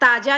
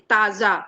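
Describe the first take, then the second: First: The middle consonant is a plain j sound. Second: The middle consonant is a buzzing fricative sound. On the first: The speaker calls it wrong. "ताजा नहीं बोलेंगे" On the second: The speaker calls it right. "निचले होंठ को हम ऊपरी दांतों से छुआएंगे"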